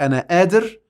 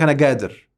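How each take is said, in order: First: The word starts with a glottal stop. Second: The word starts with a hard g sound. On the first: "في مصر يقول لك" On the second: "والتاني يقول لك"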